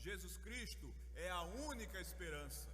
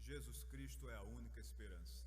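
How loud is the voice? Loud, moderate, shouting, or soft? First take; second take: loud; moderate. First: It is said loudly. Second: It is said at a moderate volume. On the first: It is spoken to people who are far away. "agora a gente vai falar mais alto" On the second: It is spoken naturally in a conversation. "um pouquinho mais alto"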